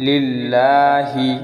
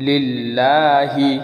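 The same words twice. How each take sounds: Both takes have the same delivery.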